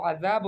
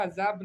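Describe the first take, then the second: First: "عذاب" as adhaab, th as in "this"; correct ذ. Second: "عذاب" said azaab with a z; mispronounced ذ. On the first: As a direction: model "عذاب" with tongue between teeth. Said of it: "وہ عذاب ہوتا ہے". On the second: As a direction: say "عذاب" the wrong way, z for ذ. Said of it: "بابا عذاب نہیں ہوتا". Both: Shown as a demonstration.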